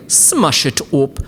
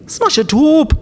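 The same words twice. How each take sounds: First: Said in the usual way. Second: Much higher, louder squeal of Smash it up; high squeaky shout. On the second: Shown as a demonstration. Vlogger squeals Smash it up at viewers, high and loud. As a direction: yelp Smash it up in a high silly voice.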